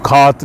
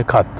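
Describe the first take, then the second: First: खात with the a stretched long; wrong long a. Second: खत said with a quick short a; short Swedish a. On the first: Teacher shows the wrong long version of katt. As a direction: drag out the a in खात. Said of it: "इसको खात नहीं पढ़ेंगे". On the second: Teacher contrasts right short katt with wrong long. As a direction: clip the a in खत. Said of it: "इसको हम छोटा पढ़ेंगे". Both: Shown as a demonstration.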